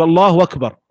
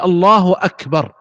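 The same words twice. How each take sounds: First: أكبر said as wakbar, gliding on from الله; hamza turned waw. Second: Slow الله أكبر with a distinct glottal stop opening أكبر; clear hamza. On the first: Teacher showing common folk's takbir, hamza as waw. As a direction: replace the first sound of أكبر with a w. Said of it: "لكن يقلبها واو". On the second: Teacher showing the correct takbir, clear hamza. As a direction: articulate أكبر carefully from its hamza, "Allahu akbar". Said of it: "فهنا قلب الهمزة واو". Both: Shown as a demonstration.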